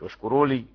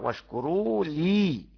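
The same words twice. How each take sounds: First: The words run together as one word. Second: The word 'li' is stressed and set apart. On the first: The speaker calls it wrong. "مش واشكروا لي كلمة واحدة" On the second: The speaker calls it right. "واعمل نبرة"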